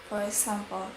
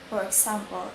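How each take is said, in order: Both takes have the same delivery.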